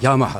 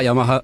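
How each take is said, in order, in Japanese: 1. 最初の音節に高さアクセントがある。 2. 最初の音節にアクセントはない。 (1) "頭にアクセントがあるんですよ" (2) "福岡ではよくヤマハヤマハ"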